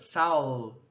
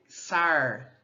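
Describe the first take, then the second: First: The final l is a dark velar l. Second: The final l becomes a retroflex r. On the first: "a lateral se transforma numa velar sonora" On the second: "o R caipira, o retroflexo, a gente pode dizer sar"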